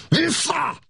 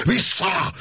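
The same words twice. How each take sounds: First: Even higher, straining yell; roaring shout again. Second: Roaring shout. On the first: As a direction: push the shout up to its peak. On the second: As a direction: roar it to drive the tiger back. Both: A narrator's reading. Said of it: "elüvöltötte magát".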